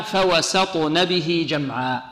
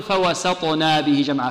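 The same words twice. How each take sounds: First: فوسطن with a short nun, no long vowel; correct reading. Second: فوسطنا with a long na, said as a mistake; wrong reading. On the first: A teacher reciting the correct form slowly, short nun. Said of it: "إذن هنا". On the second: A teacher demonstrating the wrong reading, with a long na. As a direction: read فوسطنا stretching the na as the wrong way. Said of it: "لا نقول". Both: Shown as a demonstration.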